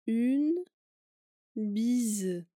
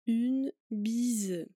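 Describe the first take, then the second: First: The phrase is said slowly. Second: The phrase is said at normal speed.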